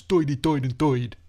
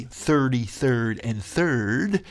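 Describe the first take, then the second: First: Put-on old New York "Doidy Doid and Doid"; New York accent. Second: Said in the usual way. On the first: Shown as a demonstration. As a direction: turn every "ir" into "oy", New York style. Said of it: "but in New York it becomes". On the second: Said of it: "it's supposed to be thirty-third and third".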